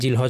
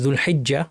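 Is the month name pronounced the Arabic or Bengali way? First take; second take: Bengali; Arabic. First: The name is said as short 'Zilhaj'. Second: The name is said as 'Zul-hijja' with doubled j. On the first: "বাংলায় জিলহজ মাস" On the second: "আরবি উচ্চারণে"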